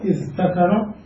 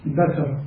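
First: اذكر said with the t, as "idhtakara"; اذكر before the merge; underlying form. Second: ذكر said with a doubled d, as "iddakara"; assimilated form. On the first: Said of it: "وفي ذكر". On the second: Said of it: "ثم نبدل التاء ... دالا". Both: Shown as a demonstration.

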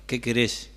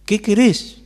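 First: Said in the usual way. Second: Louder and higher, QUERÉS driven hard; loud demanding question. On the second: Acted. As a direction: shout the question at full force. Climax of Jesus' demanding question. (pregunta gritada, fuerte y aguda)

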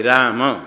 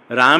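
First: राम as raa-ma, two syllables; final vowel sounded. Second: राम as one syllable, raam; final vowel dropped. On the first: Teacher corrects students, राम with final अ sounded. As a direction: voice a short अ after the म in राम. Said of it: "म में अ है". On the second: Teacher shows the wrong way, राम ending on m. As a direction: end राम on a closed m, no vowel after. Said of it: "राम नहीं". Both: Shown as a demonstration.

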